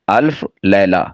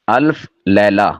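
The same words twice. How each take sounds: The two takes are said the same way.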